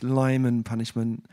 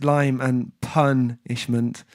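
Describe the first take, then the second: First: Said in the usual way. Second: "lime and punishment" slowly, with "pun" set apart; pun spelled out. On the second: Shown as a demonstration. Explaining the food pun to listeners, slow and deliberate on "punishment". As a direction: draw out "lime and punishment" word by word to land the pun.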